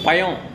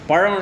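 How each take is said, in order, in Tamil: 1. நடுவில் உள்ள எழுத்து வெறும் 'y' ஒலிதான். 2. நடுவில் உள்ள எழுத்து retroflex 'zh' ஒலி. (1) "சென்னை போனால் எல்லாம் யா தான்" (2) "பழம் இல்லை பயம்"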